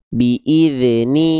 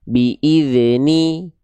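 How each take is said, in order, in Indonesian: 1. Bunyi dh memantul dengan lepasan yang singkat. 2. Bunyi dh memantul dengan lepasan yang singkat.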